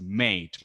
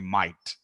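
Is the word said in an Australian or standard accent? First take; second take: standard; Australian. First: It is said in a standard accent. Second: It is said in an Australian accent.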